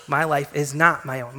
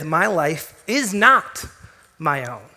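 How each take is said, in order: First: Said in the usual way. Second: Slow, with a rise on "not"; "not" held and lifted, the rest unhurried; stress on not. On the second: Shown as a demonstration. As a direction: lean slowly into "not" in "My life is not my own". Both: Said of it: "truly coming to terms with".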